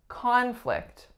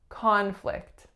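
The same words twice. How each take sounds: First: The stress is on the first syllable. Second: The same.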